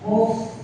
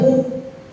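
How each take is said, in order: First: The f sound lets the breath flow out. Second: The f sound is held with breath stopped. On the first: The speaker calls it right. "hamas, muf, muf, mengalirkan nafas" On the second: The speaker calls it wrong. "bukan muf. Kalau muf nantinya tertahan"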